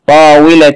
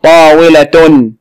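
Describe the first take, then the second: First: طاولة ending in "-tin"; kasr tanween. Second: Slow طاولة ending in "-tun"; damm tanween. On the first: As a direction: say طاولة as "taawilatin", with kasr nunation. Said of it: "تنوين بالكسر". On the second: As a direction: say طاولة slowly as "taawilatun", with damm nunation. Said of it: "تنوين بالضم". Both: Shown as a demonstration.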